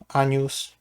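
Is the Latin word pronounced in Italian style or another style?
Italian. The word is pronounced in Italian style. "wymawiam po włosku"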